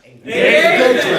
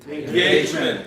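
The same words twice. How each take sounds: First: It is said with engaged, lively energy. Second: It is said plainly, without energy.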